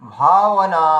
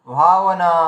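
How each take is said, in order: No difference in how they are said.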